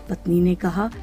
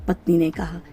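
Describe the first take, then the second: Both takes have the same delivery.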